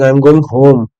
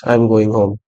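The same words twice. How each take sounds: First: Emphasis landing on "home"; stress on HOME. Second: Low, soft, unemphasized statement; dead low tone. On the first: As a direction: lean on the last word, "home". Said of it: "if I want to emphasize on something". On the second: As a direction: drop it low and stress nothing. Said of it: "it's a dead low, uh, tone sentence". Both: Shown as a demonstration.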